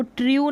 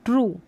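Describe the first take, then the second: First: ट्रू misread as "tryoo"; wrong yoo pronunciation. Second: ट्रू as "troo", no glide; oo pronunciation. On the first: Teacher warning against a misreading, ट्रू as "tryoo". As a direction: add a y-glide to ट्रू. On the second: Teacher correcting the misreading, ट्रू as "troo". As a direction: say ट्रू short, with plain "oo". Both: Shown as a demonstration. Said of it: "इसको ट्रू नहीं".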